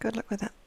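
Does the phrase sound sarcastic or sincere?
sincere. It is said in a warm, sincere tone. The speaker genuinely wishes success. The speaker calls it right.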